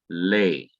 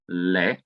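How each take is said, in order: First: The vowel is a long e sound. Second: The vowel is a short e sound. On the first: The speaker calls it right. "it is now going to be pronounced as lay" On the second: The speaker calls it wrong. "it's not going to be pronounced as le"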